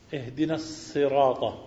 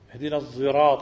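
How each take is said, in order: First: The word sirat begins with a plain s sound. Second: The word sirat begins with a z-like sound. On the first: "بالسين لا بالصاد" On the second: "بالزاي المشبع الخالصة"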